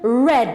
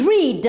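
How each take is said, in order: First: The word sounds just like the color red. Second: The word does not sound like the color red. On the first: It is the past simple form. "in the past form it becomes red, like the color red" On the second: It is the infinitive or present form. "in the infinitive form is read"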